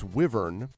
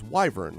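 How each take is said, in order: First: The first vowel is a short 'ih' sound. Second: The first vowel sounds like the letter Y. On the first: "no, it's wyvern" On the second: "like the letter Y"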